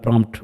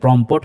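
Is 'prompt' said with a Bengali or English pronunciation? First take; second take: English; Bengali. First: It is said with an English pronunciation. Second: It is said with a Bengali pronunciation. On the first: "ইংরেজিতে আমরা প্রম্পট বলছি" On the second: "বাংলায় আসলে exactly এটা উচ্চারণ করতে গেলে প্রম্পট হয়ে যায়"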